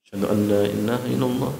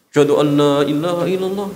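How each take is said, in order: First: It is said quietly. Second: It is said loudly.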